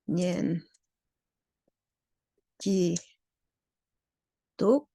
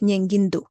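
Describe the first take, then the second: First: It is said in separate, unlinked syllables. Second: It is run together with a nasal link. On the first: "it should actually be" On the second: "which sounds like nyengindu uh, in Lhasa uh, typical pronunciation"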